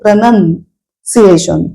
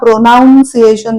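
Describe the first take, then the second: First: The second syllable sounds like 'nun'. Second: The second syllable sounds like 'noun'. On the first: The speaker calls it right. "प्रनन्सिएशन या शब्दाचा उच्चार सुद्धा पहा" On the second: The speaker calls it wrong. "प्रोनाउन्सिएशन नाहीये"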